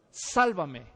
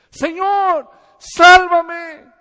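First: Said in the usual way. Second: High, very loud desperate cry; desperate scream. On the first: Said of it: "la siguiente palabra que dijo". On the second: Retold or imitated. Peter sinking in the sea, screaming to be saved. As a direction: scream for rescue as you go under. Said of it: "él gritó".

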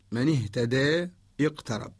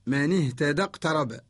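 First: Slow, اهتدى ending in a long e, then a break; imala at pause. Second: Said in the usual way. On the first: Shown as a demonstration. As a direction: stop on اهتدى as ihtadee before restarting اقترب. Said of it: "نقرأ بالإمالة وقفا". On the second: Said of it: "أما إذا وصلنا".

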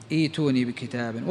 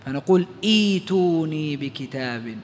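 First: A softer ايتوني, opening on a long ee, iituni; softer repeat. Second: Slow ايتوني with the hamza turned into a long ee, iituni; long ya start. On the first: Teacher repeating the example for students, soft repeat. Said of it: "نبدل الهمزة الساكنة ياء". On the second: Teacher showing the start after a pause, slow pronunciation. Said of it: "إيش نبدل الهمزة الساكنة؟ ياء". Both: Shown as a demonstration.

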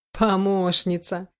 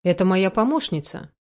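First: Slow, drawn-out scornful echo; bitter mockery. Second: Said in the usual way. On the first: A narrator's reading. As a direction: stretch the word out in bitter disbelief. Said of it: "смех был горьким". (горькая насмешка, протяжно)

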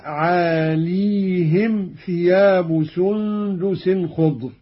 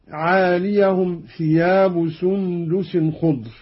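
First: "عاليهم" as "aaleehim", long ee; very slow recitation, stretch "عاليهم" into aa-lee-him; silent-voweled ya. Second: "عاليهم" as "aaliyahum", ya with a short a; slow recitation, "عاليهم" ending -yahum; voweled ya. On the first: Teacher demonstrates Qalun's reading, "عاليهم" with still ya, aaleehim. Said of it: "قرأ قالون بإسكان الياء هكذا". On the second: Teacher reads the verse before the variant, "عاليهم" as aaliyahum. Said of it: "قرأ قالون بإسكان الياء". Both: Shown as a demonstration.

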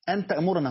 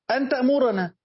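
First: Said in the usual way. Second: تأمرنا lifted much higher and punched; stress on تأمرنا. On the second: Shown as a demonstration. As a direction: hit تأمرنا hard and high to show the point. (نبرة قوية عالية على تأمرنا) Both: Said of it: "ما هو الصلاة لما تأمر، تأمر بشيء من فعله".

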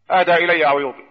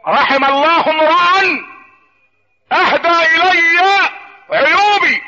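First: Said in the usual way. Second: Very slow, high pulpit declamation; declaimed saying. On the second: Acted. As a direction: ring out each phrase, long and high, with pauses. (ترتيل خطابي عالٍ بطيء)

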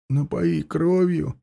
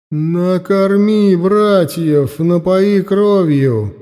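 First: Slow, soft, vacant echo; mindless repeating. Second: Loud, slow, commanding otherworldly voice; goddess voice. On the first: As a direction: repeat it blankly, as if entranced. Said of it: "бездумно повторил за ней Власка". (бездумный, тихий повтор) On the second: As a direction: boom out a divine command, slowly. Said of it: "раздался голос богини". (властный голос богини) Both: Acted.

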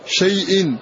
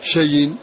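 First: "شيء" as shay-in, glottal stop after the y; hamza pronounced. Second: "شيء" as sha-yin, no glottal stop; hamza dropped. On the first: Teacher showing the original word, "شيء" with hamza pronounced. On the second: Teacher deleting the hamza, "شيء" run together as shayin. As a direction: let y carry the vowel in "شيء". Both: Shown as a demonstration. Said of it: "ثم احذف هذه الهمزة فتقول شيء".

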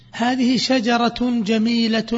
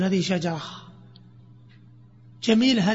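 First: "هذه شجرة جميلة" slow, every ending fully voiced; slow full reading. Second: "جميلة" ending in ها after a pause; pausal ending with ha. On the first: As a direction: read "هذه شجرة جميلة" slowly and completely, no pausal ending. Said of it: "وش تقول؟". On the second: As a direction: break off, then close "جميلة" with an audible ه. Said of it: "تبدل التاء هاء". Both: Shown as a demonstration.

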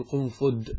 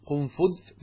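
First: قنفذ ending in a hard d; undotted dal ending. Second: قنفذ ending in dh, as in "this"; dotted dhal ending. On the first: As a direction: say قنفذ as qun-fud. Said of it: "ويجوز بالمهملة يعني بالدال". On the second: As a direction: say قنفذ as qun-fudh. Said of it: "يجوز قنفذ بالذال". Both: Shown as a demonstration.

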